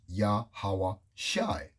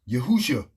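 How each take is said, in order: First: The name ends with a 'shai' sound. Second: The name ends with a 'shua' sound. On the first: The speaker calls it right. "the correct pronunciation" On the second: The speaker calls it wrong.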